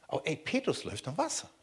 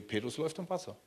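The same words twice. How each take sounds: First: Rising on "Wasser", driving the point home; "Aber ey" pushing the disbelief; insistent rise on "Wasser"; emphatic. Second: Soft, falling on "Wasser"; quiet amazement; hushed marvel. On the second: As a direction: breathe it out in quiet wonder. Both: Shown as a demonstration.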